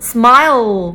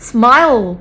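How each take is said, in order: First: Every sound of the word is fully pronounced. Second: Every sound of the word is fully pronounced.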